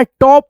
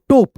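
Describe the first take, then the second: First: टॉप with a wide open ɔ, slowly; open o in top. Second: टोप with a closed o like "tope"; wrong short o. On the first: Teacher correcting students, slow open ɔ in टॉप. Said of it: "टॉप पढ़ते हैं". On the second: Teacher demonstrating the wrong reading, closed o in टोप. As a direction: say टोप with a plain o vowel, the wrong way. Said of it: "तो टोप नहीं पढ़ना". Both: Shown as a demonstration.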